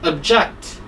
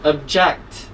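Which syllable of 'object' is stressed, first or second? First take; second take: second; second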